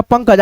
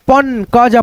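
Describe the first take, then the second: First: Said in the usual way. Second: पन क ज, slowly broken into parts; पन क ज with the half न clearly sounded; sounded out by syllable. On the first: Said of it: "आधा न के रूप में उच्चारण". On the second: Shown as a demonstration. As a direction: split पंकज as पन, क, ज. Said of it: "आधा न के रूप में उच्चारण हो रहा है".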